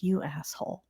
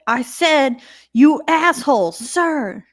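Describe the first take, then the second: First: Softer, under-the-breath jab; muttered insult. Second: Louder and higher, defiant; defiant repeat. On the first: De Silva insulting the colonel under her breath, quiet. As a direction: slip it out quietly. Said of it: "she's like". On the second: De Silva doubling down to the colonel, loud and defiant. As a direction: throw it right back at him. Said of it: "And she said". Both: Retold or imitated.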